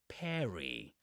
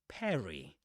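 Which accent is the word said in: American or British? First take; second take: American; American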